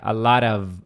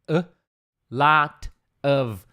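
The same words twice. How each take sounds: First: The t in 'lot' sounds like an r. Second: The t in 'lot' is a hard t. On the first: "esse Tzinho meio que vira um R" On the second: "até na pronúncia é a lot of"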